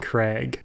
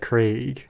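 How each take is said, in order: First: The vowel is short, as in 'crag'. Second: The vowel is long, as in 'day'. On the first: The speaker calls it wrong. "the Americanism is saying Craig, like a like a crag" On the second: The speaker calls it right. "the name is supposed to be said Craig"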